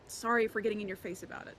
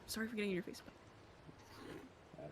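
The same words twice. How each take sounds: First: The line is spoken clearly at normal volume. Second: The line is mumbled quietly and indistinctly.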